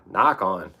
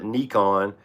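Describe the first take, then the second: First: The first vowel sounds like 'eye'. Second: The first vowel sounds like 'ee'. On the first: The speaker calls it right. "that I is, is a long I" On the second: The speaker calls it wrong. "everybody wants to call it Nikon. There's there's no two E's"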